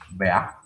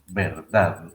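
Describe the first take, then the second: First: The word is shortened, dropping r and d. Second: The full word is said with final d. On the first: "a veces decimos vea" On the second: "se pronuncia así"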